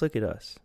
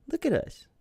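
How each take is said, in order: First: Said in the usual way. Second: Sudden very high, goofy squeak; squeaky high. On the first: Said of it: "self-demo look at us". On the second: Shown as a demonstration. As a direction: squeal it like a cartoon kid. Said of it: "high goofy repeat".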